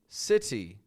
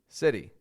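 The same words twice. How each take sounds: First: The middle T is a full, hard T. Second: The middle T is a quick flap, like r. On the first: The speaker calls it wrong. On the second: The speaker calls it right.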